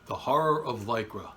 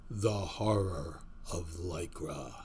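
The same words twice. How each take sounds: First: Said in the usual way. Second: Low, slow, ominous horror voice; horror host. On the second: Acted. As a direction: intone the title like a horror trailer. Horror-style show title intro.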